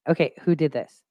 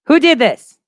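First: Said in the usual way. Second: Much higher, louder who did this; hammed-up demand who did this; mock outraged shout. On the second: Real, not acted. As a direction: call out did in playful outrage. Repeats question, then laughs.

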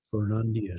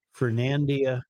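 First: Fernandina with a broad "ah" in the middle; corrected pronunciation. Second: Fernandina with a flat "an" as in "hand"; own pronunciation. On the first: Host tries the correction on Fernandina, with a broad AH. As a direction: say Fernandina as "fer-NAHN-dina", lower. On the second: Host names the town his usual way, Fernandina with flat A. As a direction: say Fernandina, middle vowel as in "hand". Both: Shown as a demonstration. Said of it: "Somebody wants me to correct my pronunciation".

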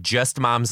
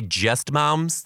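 First: Said in the usual way. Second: "just moms" pitched up, as a put-down; dismissive "just moms". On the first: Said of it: "I'm saying just moms like moms who are not even teachers". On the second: Shown as a demonstration. Podcaster showing listeners the wrong meaning, dismissive "just moms". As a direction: say "just moms" as if they were merely moms. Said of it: "I don't mean to say just moms like that".

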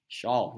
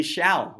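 First: "Shawl" with an open aw vowel; pronounced Shawl. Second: "Shall" with a short a vowel; pronounced Shall. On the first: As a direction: say "Shawl" to rhyme with "crawl". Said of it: "No, it's still Shaw". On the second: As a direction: say "Shall" to rhyme with "pal". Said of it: "it would be Shall without the C". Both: Shown as a demonstration.

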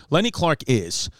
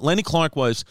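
First: Self-correction landing on "is"; firm, falling "is"; stress on "is". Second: Said in the usual way. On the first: Real, not acted. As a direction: set "is" apart as the corrected word.

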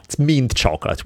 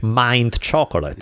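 First: Mint with a short i, higher pitch; corrected mint. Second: Mint said to rhyme with pint; mispronounced mint. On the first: Speaker repeating the correction he was given, exasperated correct mint. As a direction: say "mint" with a short, thin vowel. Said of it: "Why does the pronunciation change?". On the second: Italian speaker reading mint by its spelling, mispronounced. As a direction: say "mint" with a long "eye" vowel. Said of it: "No, it's mint chocolate". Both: Retold or imitated.

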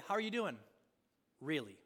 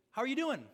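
First: Pause, then a low, falling Really? that probes; pointed follow-up. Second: Said in the usual way. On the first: Retold or imitated. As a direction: let Really? land heavy and searching. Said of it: "for us, he'd say". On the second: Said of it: "he'd say".

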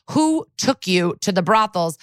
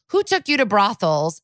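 First: "Who took you to the brothels?" spaced out word by word, firmly; doubling down on the question. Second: Said in the usual way. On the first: Retold or imitated. Prosecutor repeats her question to Drew on the stand, "Who took you to the brothels?" pressed deliberately. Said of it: "doubles down on the question". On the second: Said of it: "But now she asks him".

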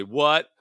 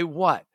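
First: Drawn-out, rising "what?"; exaggerated annoyance. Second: Said in the usual way. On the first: Partner correcting how the spouse says it, mocking. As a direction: mimic the irritated "what?" back. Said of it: "No, you don't just say". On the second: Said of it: "I just say".

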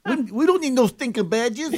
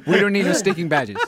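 First: Higher-pitched, badly faked Latin accent. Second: Light mock Latin accent, amused. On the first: Co-host tries the badges line, botched Latin accent. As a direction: attempt a Latin accent and miss, near laughter. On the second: Shown as a demonstration. Host models the badges line, light Latin accent. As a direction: lightly put on a Latin movie bandit accent. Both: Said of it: "Give us a little Latin flavor".

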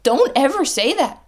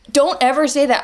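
First: Don't ever say that, high and pressing; emphatic warning. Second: Don't ever say that, settling down firmly; firm repeat. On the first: Warning coaches off big promises, emphatic. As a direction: scold them firmly, leaning on don't. Scolding coaches who vow never. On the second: Repeating the warning to coaches, firm and final. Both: Acted.

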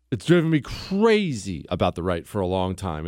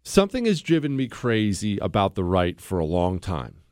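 First: CRAZY stretched out and pitched up; emphatic repeat, punching "crazy"; stress on crazy. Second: Said in the usual way. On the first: Real, not acted. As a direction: lean hard on "crazy", drawing it out.

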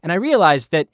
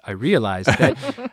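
First: Said in the usual way. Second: Slow, light take on a TV executive; Skipper voice. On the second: Retold or imitated. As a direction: slowly voice the boss realizing it. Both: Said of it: "I'll do Skipper voice".

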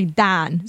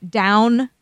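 First: "dan" with a flat A-H vowel for down; Pittsburgh vowel. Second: Said in the usual way. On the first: Shown as a demonstration. Showing how Pittsburghers say down, "dan" with an A-H vowel. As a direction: say "dan", drawn out, no O glide. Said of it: "it's like an A H sound". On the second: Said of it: "instead of s-, like, an O".

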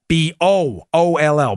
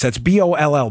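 First: B O O L L spelled letter by letter, slow and deliberate; slow deliberate spelling of B O O L L; spelled out slowly. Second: Said in the usual way. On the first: Shown as a demonstration. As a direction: spell B O O L L out carefully so it isn't heard as ball. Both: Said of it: "Not ball".

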